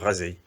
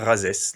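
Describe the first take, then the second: First: The word ends in a vowel without an s sound. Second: The word ends with an audible s sound. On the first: The speaker calls it right. "nous disons" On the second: The speaker calls it wrong. "nous ne disons pas"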